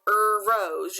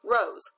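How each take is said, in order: First: An extra er sound comes before rose. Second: Rose starts directly with the r sound. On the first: The speaker calls it wrong. "You don't smell an er rose" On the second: The speaker calls it right. "You smell a rose"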